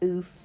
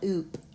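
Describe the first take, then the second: First: The syllable ends with an f sound. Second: The syllable ends with a p sound. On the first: The speaker calls it right. "This says F, ... but oof" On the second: The speaker calls it wrong. "not oop"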